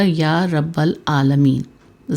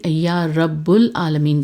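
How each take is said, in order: First: The vowel after rabb is an a sound. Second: The vowel after rabb is a u sound. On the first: The speaker calls it right. "ज़बर के साथ" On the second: The speaker calls it wrong. "जबकि ये गलत है"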